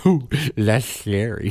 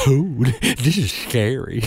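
First: Put-on slow, lisped child; lisping boy again. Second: Put-on slow, lightly lisped small child, higher; a hint of a tiny boy with a lateral lisp, slow; lisping little Kentucky boy. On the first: Repeating the Kentucky boy's line, slow and lisped. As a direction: lightly lisp it like the boy. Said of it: "tiny little Kentucky boy". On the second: Retelling a Kentucky boy backstage, lightly lisped child voice. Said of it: "tiny little Kentucky boy with a perfect lateral lisp".

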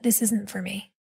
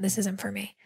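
First: Said in the usual way. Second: Hushed, breathy whisper of quitting. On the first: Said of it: "I just went". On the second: Retold or imitated. Student quietly deciding to leave the program, whispered. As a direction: whisper it to yourself. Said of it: "Not the acting, but the program".

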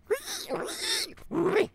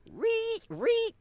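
First: Very high squeal sucked in on the breath; inhaled pig squeal. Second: Very high squeaky pig squeal. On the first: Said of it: "with an inhale". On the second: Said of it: "they might go". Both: Shown as a demonstration.

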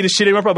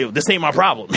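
First: Blunt brush-off. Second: Said in the usual way. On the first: Shown as a demonstration. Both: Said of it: "but I was like".

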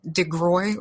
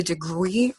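First: DeGroy, ending in "oy"; DeGroy with an "oy" sound at the end; alternative name pronunciation. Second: DeGruy, ending in a long "ee"; DeGruy with a drawn-out "ee" at the end; alternative name pronunciation. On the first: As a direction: say DeGroy to rhyme with "boy". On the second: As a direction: say DeGruy to rhyme with "tree". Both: Shown as a demonstration. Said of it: "not sure how she pronounces her name".

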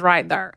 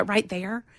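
First: THERE as one-syllable "thurr"; corrective slang pronunciation. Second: THERE stretched into two Southern syllables; Southern pronunciation. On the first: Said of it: "there does not s-, even sound normal". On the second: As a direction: draw "there" out as "they-er". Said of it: "one syllable words I say come out". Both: Retold or imitated.

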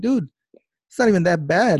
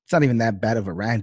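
First: Loud, high retort acted out; exasperated retort. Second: Said in the usual way. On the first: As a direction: fire back loud in disbelief. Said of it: "I'm like".

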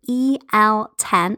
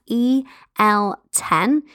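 First: Slow, each letter clear; spelled out slowly. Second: Very slow, letter by letter; spelled out very slowly. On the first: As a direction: spell the code out carefully. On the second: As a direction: spell it out so nobody misses it. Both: Shown as a demonstration. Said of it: "That's E L ten".

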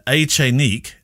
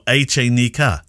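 First: Echenique ending in a clean "-eek"; French pronunciation. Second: Echenica ending in "-ee-ka"; Spanish pronunciation. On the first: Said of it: "There's a French and a Spanish pronunciation". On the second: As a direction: say Echenica the Spanish way, eh-che-NEE-ka. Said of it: "the K would be the Spanish pronunciation". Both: Shown as a demonstration.

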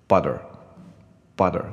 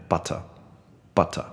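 First: BUTTER with the T turned into a D and a strong R; American butter. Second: BUTTER with a crisp T and a light R; British butter. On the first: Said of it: "美式的话，我会念啊". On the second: Teacher demonstrating British style for students, clear T. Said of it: "如果英式的话". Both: Shown as a demonstration.

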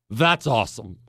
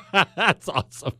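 First: Said in the usual way. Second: Chuckling through the words; laughing. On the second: Real, not acted. Host laughing at Caesar's bridge stunt, amused. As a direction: laugh it out, delighted.

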